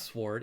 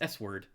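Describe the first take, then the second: First: The word is said with a silent w. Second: The word is said with the w sounded. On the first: The speaker calls it wrong. "It's not sword" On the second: The speaker calls it right. "I just pronounce everything like phonetically"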